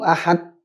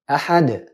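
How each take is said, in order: First: The final d stops flat without a bounce. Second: The final d ends with an echoing bounce. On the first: The speaker calls it wrong. "Kalau orang banyak baca" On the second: The speaker calls it right. "padahal harusnya qalqalah"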